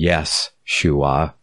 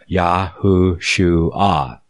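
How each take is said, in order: First: The name begins with a 'yes' sound. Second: The name begins with a 'yah' sound. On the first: The speaker calls it wrong. "pronouncing it with a yes type sound instead of a Yah" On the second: The speaker calls it right. "4 syllables"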